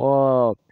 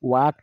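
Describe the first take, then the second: First: The word begins directly with the vowel. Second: The word begins with a w sound. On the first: The speaker calls it right. "ওয়াক না ওক" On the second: The speaker calls it wrong. "ওয়াক না ওক"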